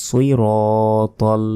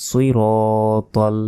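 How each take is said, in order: Both takes have the same delivery.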